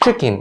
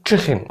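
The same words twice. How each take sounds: First: The middle consonant is a plain k sound. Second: The middle consonant is a throaty kh sound. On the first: "زي كلمة chicken" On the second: "صوت الكي برضو يتنطق خ في نص الكلمة"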